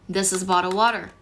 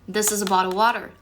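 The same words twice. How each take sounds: The two takes are said the same way.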